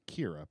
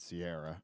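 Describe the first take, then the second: First: The name begins with a K sound. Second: The name begins with an S sound. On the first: The speaker calls it wrong. "everybody thinks it's going to be Kira" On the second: The speaker calls it right. "which I think makes it Sierra"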